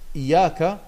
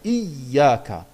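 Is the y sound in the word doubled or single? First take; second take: single; doubled. First: The y sound is short, single. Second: The y sound is held long, doubled. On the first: The speaker calls it wrong. "dann hat man nur ein Ja gesprochen mit einer Fatha" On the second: The speaker calls it right. "IYY oder JJ, ja, und dann AKA. Das wäre dann Iyaka. Aber das heißt ein doppeltes Y"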